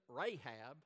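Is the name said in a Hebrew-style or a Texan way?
Texan. The name is said with a Texan accent. The speaker calls it wrong. "my Texan Rahab"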